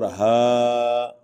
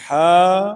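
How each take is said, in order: First: Long 'ہا' with light open H; letter demonstration. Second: Loud high 'ہا' with squeezed throaty H; held 'ہا', strong mid-throat friction; letter demonstration. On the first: Teacher contrasting two H letters, light and drawn out. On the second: Teacher contrasting two H letters, throaty and loud. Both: Shown as a demonstration. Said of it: "یہ ملا جلا رجحان ہے".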